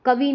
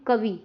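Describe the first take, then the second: First: कवि as कवी, with long final ee; mistaken final vowel. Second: कवि with short final i; correct final vowel. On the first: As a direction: lengthen the end of कवि to vee. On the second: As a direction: say कवि with a brief, falling last vowel. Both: Shown as a demonstration. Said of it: "कवि नहीं".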